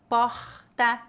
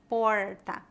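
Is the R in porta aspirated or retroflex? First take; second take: aspirated; retroflex. First: The R is a breathy, h-like sound. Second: The R is curled back, like English R. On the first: "como o R aspirado" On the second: "É uma pronúncia similar ao R do inglês"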